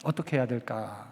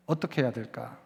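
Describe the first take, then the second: No difference in how they are said.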